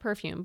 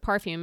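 First: The first syllable sounds like 'per'. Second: The first syllable sounds like 'par'. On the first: This is the ordinary English word. "not perfume" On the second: This is the label term found on ingredient lists. "but perfume, ... P-A-R-F-U-M"

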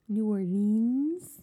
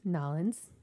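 First: The name is said with all its syllables. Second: The name is squeezed into two quick syllables.

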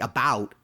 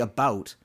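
First: The vowel in about is an open 'a' sound. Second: The vowel in about is a raised Canadian sound. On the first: "I can say it with an A" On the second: "We say about"

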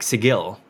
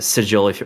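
First: The G is hard, like in go. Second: The G is soft, like a J.

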